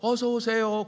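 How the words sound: The greeting is said at a very high pitch. "너무 높은 톤으로"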